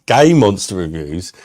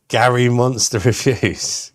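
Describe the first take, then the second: First: Gay said instead of Gary, louder, teasing; misread name. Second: Said in the usual way. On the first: Shown as a demonstration. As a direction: drop the r so Gary becomes Gay. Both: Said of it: "I wish said Gary".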